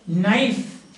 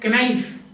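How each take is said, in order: First: The word starts with an n sound, k silent. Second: The word starts with a sounded k. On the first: The speaker calls it right. "you pronounce it as knife" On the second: The speaker calls it wrong. "You don't say knife"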